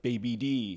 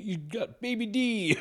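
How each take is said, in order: First: Said in the usual way. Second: High-pitched put-on jeer; mocking quote. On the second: Retelling the beating of a rival's nephew, high mocking voice. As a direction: say it as a high, drawn-out mock taunt.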